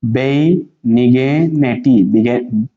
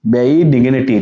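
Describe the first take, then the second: First: Very slow, stretched "बेनिग्निटी"; syllable by syllable. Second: Said in the usual way. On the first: Shown as a demonstration. Teacher showing students how to read it, slowly in syllables. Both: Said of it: "अब ये क्या है".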